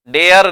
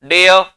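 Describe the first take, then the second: First: "डेयर" with the final r clearly sounded; wrong pronunciation. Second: "डेयर" ending in an open "uh", no r; silent r. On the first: Teacher showing the take to avoid, r fully pronounced. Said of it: "नहीं बोलते". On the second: Teacher modelling English dare, r left silent. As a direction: leave the r off the end of "डेयर". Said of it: "रे की sound नहीं आती". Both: Shown as a demonstration.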